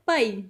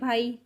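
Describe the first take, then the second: First: The word is said with more force. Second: The word is said softly and politely. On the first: This is the Punjabi way of saying it. "Means थोड़ा ज़ोर से बोला जा रहा है पंजाबी को" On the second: This is the Hindi way of saying it. "Hindi में बोलते हैं भाई तो बिल्कुल पोलाइट वे में बोला जा रहा है"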